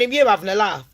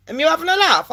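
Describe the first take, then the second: First: Said in the usual way. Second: Higher-pitched retold disbelief; incredulous repeat. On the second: Caller challenges the bank advice, higher incredulous repeat.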